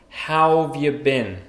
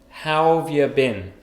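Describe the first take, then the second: Both takes have the same delivery.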